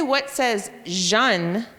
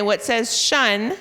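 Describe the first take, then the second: First: Very slow, "jeune" with a zh sound; teacher prompt. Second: Slow question leaning on shun; drawn-out cue, stress on shun; teacher prompt. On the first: Teacher contrasting shun with the zh sound. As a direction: drag it out, zh-un at the end. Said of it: "But if you say". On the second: Teacher quizzing kids on what says shun. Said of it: "And when you say". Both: Shown as a demonstration.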